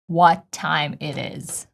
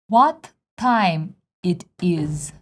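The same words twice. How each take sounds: First: It is spoken with American sound placement. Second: It is spoken with Russian sound placement. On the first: The speaker calls it right. "With American" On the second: The speaker calls it wrong. "with Russian one"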